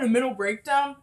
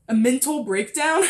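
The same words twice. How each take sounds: First: Said in the usual way. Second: "mental" said crisply with its t sounded; careful re-pronunciation. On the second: Real, not acted. Podcaster tidying her own words, "mental" carefully enunciated with a clear t. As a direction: enunciate "mental" fully, both n and t. Re-says the slurred word carefully.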